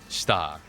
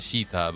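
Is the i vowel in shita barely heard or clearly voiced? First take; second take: barely heard; clearly voiced. First: The i vowel is barely pronounced. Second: The i vowel is clearly pronounced. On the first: The speaker calls it right. "the I is not as pronounced" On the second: The speaker calls it wrong. "not shita"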